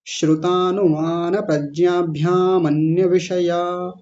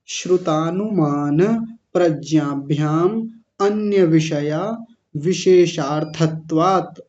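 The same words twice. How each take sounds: First: प्रज्ञाभ्याम run into अन्य, which is said as "mnya" without a separate अ; joined flow. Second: Slow, with अन्य set apart and its अ sounded after प्रज्ञाभ्याम; with अ separated. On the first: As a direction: chant it all in one breath, with no break before अन्य. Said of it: "अ को अलग नहीं करना है तो कैसे बोलेंगे". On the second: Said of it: "अ को अलग किया जा सकता है". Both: Shown as a demonstration.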